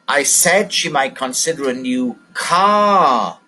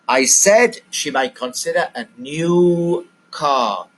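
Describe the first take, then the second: First: The word car carries the stress. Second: The word new carries the stress. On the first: She will buy a car, not a table or television. "She's going to buy a car" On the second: She will buy a new car, not a second-hand one. "The stress is on the word new"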